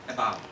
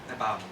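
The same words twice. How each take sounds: The two takes are said the same way.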